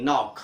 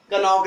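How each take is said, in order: First: नॉक starting straight on n; silent K. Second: कनॉक with "ka" before the n; sounded K. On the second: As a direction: say कनॉक, wrongly voicing k. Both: Shown as a demonstration. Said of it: "कनॉक नहीं".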